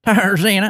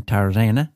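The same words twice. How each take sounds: First: Tarzana sung out in a put-on accent, much higher and louder; playful put-on accent. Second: Said in the usual way. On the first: Shown as a demonstration. Host telling listeners about driving with his wife, in a playful put-on accent. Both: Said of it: "I don't know why I said it with an accent".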